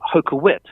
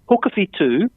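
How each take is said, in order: First: The name is said in an anglicized way. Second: The name is said in the Māori way. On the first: The speaker calls it wrong. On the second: The speaker calls it right.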